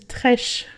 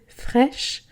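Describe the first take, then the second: First: The word begins with a plain t sound. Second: The word begins with a th sound. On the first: The speaker calls it wrong. "moi ce que je dis trèche" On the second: The speaker calls it right. "se prononcer fraîche avec le th au début"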